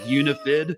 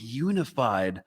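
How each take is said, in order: First: The last syllable has a short 'ih' vowel. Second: The last syllable has a long 'eye' vowel. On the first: The speaker calls it wrong. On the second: The speaker calls it right.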